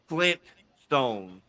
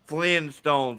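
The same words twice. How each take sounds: First: The T sound is pronounced before stones. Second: The T sound is dropped before stones. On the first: The speaker calls it right. "It is actually Flintstones" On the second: The speaker calls it wrong. "most people see it as Flintstones with no T in the middle"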